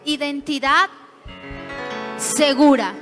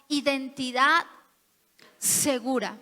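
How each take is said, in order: First: It is said louder and stronger. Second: It is said at normal volume.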